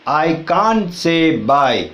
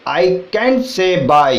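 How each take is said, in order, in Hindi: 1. "can't" का स्वर लंबा है, "car" जैसा। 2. "can't" का स्वर छोटा है, "cat" जैसा।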